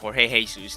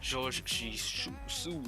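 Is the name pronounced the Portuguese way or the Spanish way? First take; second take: Spanish; Portuguese. First: The name is pronounced the Spanish way. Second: The name is pronounced the Portuguese way. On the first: The speaker calls it wrong. "If it's Spanish, then yeah, Jorge Jesus, that will be the right pronunciation" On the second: The speaker calls it right. "it should be a Portuguese name. Should be called Jorge Jesus"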